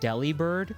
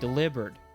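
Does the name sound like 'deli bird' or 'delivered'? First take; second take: deli bird; delivered. First: It sounds like two words, deli and bird. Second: It sounds like the single word delivered. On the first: A bird that works at a deli. "naturally you just want to say it Delibird, like a bird that works at a deli" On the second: The name is a pun on delivered. "now I want to say Delibird. Delivered. Which is not normal and sounds weird"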